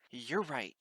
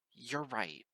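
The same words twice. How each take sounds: First: Louder gruff grunt. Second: Short and unmelodious; curt. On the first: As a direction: grunt it out, annoyed. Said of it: "Twilight grunted". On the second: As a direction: clip the words coldly. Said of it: "Her voice is curt, unmelodious". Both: A narrator's reading.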